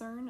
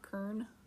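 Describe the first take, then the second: First: The word begins with an S sound. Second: The word begins with a K sound. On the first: The speaker calls it right. "I'm assuming it's CERN" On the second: The speaker calls it wrong. "that just doesn't sound right"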